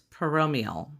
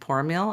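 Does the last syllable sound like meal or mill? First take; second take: meal; mill. First: The last syllable sounds like meal. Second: The last syllable sounds like mill. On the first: The speaker calls it right. "Not mill, meal" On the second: The speaker calls it wrong. "that's wrong"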